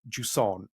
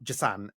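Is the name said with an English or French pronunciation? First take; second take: French; English. First: The name is said with a French pronunciation. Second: The name is said with an English pronunciation. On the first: The speaker calls it right. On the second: The speaker calls it wrong.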